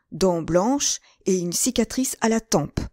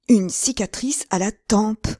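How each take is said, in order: First: Said in the usual way. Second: "Une cicatrice à la tempe!" cried out higher and louder, slowed; startled exclamation. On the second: Acted. D'Artagnan recognizing the scarred man, crying out "Une cicatrice à la tempe!". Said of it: "s'écria d'Artagnan".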